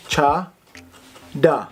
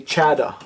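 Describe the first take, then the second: First: "cha, da" split in two with open ah vowels; correct pronunciation. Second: "chada" with flat English a, as in chat; wrong pronunciation. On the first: Teacher modelling slang for great, slow separated "cha, da" with ah. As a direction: say "cha, da" as CHAH, pause, DAH. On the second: Teacher warning viewers off an English reading, "chada" said as CHAD-uh. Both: Shown as a demonstration. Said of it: "Just don't say chada".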